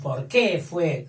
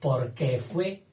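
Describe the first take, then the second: First: The word 'que' is stressed. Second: The word 'que' is unstressed. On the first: It asks a question about the reason. The speaker calls it wrong. "eso sería otra cosa" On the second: It links back to the preceding noun. The speaker calls it right. "no es tónico"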